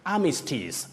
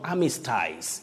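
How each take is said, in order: First: The ending sounds like 'is'. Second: The ending sounds like 'eyes'. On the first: The speaker calls it right. "you pronounce those parts as is" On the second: The speaker calls it wrong. "not eyes"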